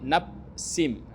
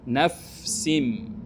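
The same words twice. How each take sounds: First: The f sound is cut off abruptly. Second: The f sound is drawn out and flows. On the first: The speaker calls it wrong. "Yang tidak boleh itu gini, naf bunyi tetapi tidak mengalir. itu salah" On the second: The speaker calls it right. "Sampai dia mengalir"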